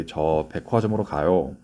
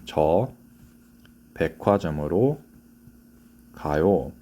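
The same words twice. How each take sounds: First: 저 백화점으로 가요 rattled off fast in one breath; fast natural Korean; rushed Korean line. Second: 저, 백화점으로, 가요 said slowly with pauses between words; careful teacher demo. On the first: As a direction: blurt 저 백화점으로 가요 quickly as one run. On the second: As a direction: space out 저 백화점으로 가요 clearly for learners. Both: Shown as a demonstration. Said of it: "Excuse me".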